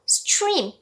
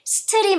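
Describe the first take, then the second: First: The tr cluster sounds like chr. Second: The tr cluster has a plain t sound. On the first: The speaker calls it right. "trdr 요런 소리들은요 추루, 주루 이렇게 발음이 돼요" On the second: The speaker calls it wrong. "stream 아니고요"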